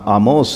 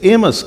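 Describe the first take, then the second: First: The name begins with an open 'ah' vowel. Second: The name begins with an 'eh' vowel. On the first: This is the Hebrew form of the name. "इब्रानी में भी इसका नाम आमोस है" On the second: This is the English form of the name. "अंग्रेजी में इसे एमस कहते हैं"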